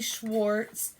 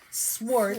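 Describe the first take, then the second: First: The name begins with an sh sound. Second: The name begins with a plain s sound. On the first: The speaker calls it wrong. "not Schwartz" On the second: The speaker calls it right.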